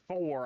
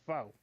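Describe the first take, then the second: First: The final r sound is pronounced. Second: The final r sound is dropped. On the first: The speaker calls it right. "Instead of saying four" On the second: The speaker calls it wrong. "I said foe"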